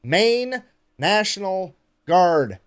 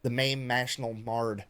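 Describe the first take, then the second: First: Very slow, each word of "Maine National Guard" separated; over-enunciate MAINE, NATIONAL, GUARD one at a time; careful retake. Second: GUARD botched as "mard", trailing off quieter and lower; tongue-tied flub. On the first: Careful retake after flubbing the name. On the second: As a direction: stumble through "Maine National Guard", slurring GUARD into "mard". Botched take, curses, then retries. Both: Real, not acted.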